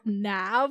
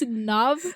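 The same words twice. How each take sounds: First: The name is said with an anglicized pronunciation. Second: The name is said with its native pronunciation. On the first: The speaker calls it wrong. "not Nav ... Don't anglicize it" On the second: The speaker calls it right. "it's Nav"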